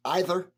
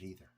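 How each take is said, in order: First: "either" starting with EYE, loud and high; long-i pronunciation. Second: "either" starting with EE; long-e pronunciation. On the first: Beer reviewer finishing a complaint about vanilla, "either" as EYE-ther. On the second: Beer reviewer second-guessing his own word, "either" as EE-ther. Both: Shown as a demonstration. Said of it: "or is it either?".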